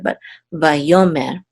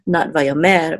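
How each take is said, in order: First: The stress is on the second syllable. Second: The stress is not on the second syllable. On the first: The speaker calls it right. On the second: The speaker calls it wrong.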